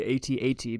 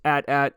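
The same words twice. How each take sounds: First: It is spelled out letter by letter. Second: It is said as a word, 'at-at'. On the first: "I will always say AT-AT" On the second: "I know that's the correct way to say it"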